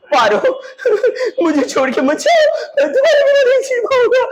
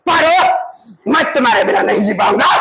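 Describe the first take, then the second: First: Hammed-up wailing plea, soaring very high; tearful pleading. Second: Dramatic declaration. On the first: Teacher acts out lover begging Paro not to leave, tearful pleading. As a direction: beg like a melodramatic weeping lover. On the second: Teacher replays lover's plea to Paro without weeping, dramatic declaration. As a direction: call out the name long, then rush the vow. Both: Shown as a demonstration.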